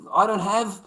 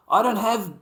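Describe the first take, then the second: No difference in how they are said.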